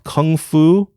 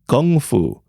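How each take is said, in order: First: The first word begins with a K sound. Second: The first word begins with a G sound. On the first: The speaker calls it wrong. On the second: The speaker calls it right.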